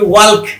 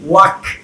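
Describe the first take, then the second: First: The L is sounded after a 'wa' vowel. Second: There is no L, with a 'wa' vowel. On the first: The speaker is very weak in English. "যারা ইংরেজিতে একেবারে দুর্বল তারা বলবে ওয়াল্ক" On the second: The speaker knows English moderately well. "আমরা যারা মোটামুটি পারি তারা বলি কি ওয়াক"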